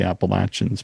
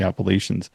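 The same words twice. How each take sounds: First: It is said the way Americans say it. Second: It is said the way Canadians say it. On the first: "in the States they call it the Appalachians" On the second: "up here in Canada we call it the Appalachians"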